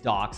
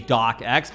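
First: The name is said like docks, one syllable. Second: The name is said like dock-ex, two syllables. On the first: The speaker calls it right. "The correct way to say it is docs" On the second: The speaker calls it wrong. "As awesome as it is to say DocX, because of course, Microsoft Word, the extension ending is .docx"

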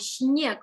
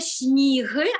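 First: The vowel glides from 'ee' to 'eh'. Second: The vowel is a plain 'ee' sound. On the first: The speaker calls it right. "а «сніг», бо там іде «і», а потім іде «е»" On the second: The speaker calls it wrong. "І не «сніг»"

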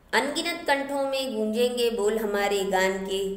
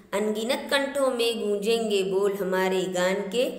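The two takes are said the same way.

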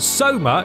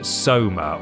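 First: The word is said loudly. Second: The word is said at a normal volume.

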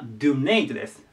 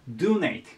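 First: The stress is on the second syllable. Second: The stress is on the first syllable. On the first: The speaker calls it wrong. "間違った" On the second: The speaker calls it right. "アクセントが大事で、最初にいきます"

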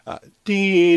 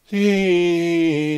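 First: The voice is clear and firm, not airy. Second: The voice is airy with escaping breath. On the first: The vocal cords use the air efficiently. The speaker calls it right. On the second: The vocal cords let too much air through. The speaker calls it wrong. "Here's a breathy version"

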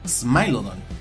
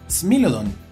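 First: The name is pronounced in an English style. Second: The name is pronounced in a Spanish style. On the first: The speaker calls it wrong. "y no Smilodon, como luego lo hacen algunos angloparlantes" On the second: The speaker calls it right. "se pronuncia Smilodon"

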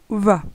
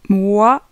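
First: The syllable begins with a v sound. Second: The syllable begins with a w sound. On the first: "d'autres personnes vont dire va" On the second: "Certaines personnes vont dire wa"

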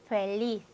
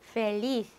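First: The final consonant sounds like English th. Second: The final consonant sounds like English th.

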